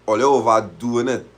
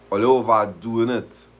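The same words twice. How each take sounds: The two takes are said the same way.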